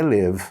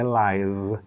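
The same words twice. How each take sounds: First: Live as "liv", with the vowel of milk; short I. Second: Live as "laiv", rhyming with five; long "ai" vowel. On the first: Teacher demonstrating the verb, live with a short I. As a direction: make live rhyme with give, silent E. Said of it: "esse símbolo é o I meio E de milk". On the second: Teacher demonstrating the adjective, live with an "ai" sound. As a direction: say live with a clear "ai" glide. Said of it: "É com I". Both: Shown as a demonstration.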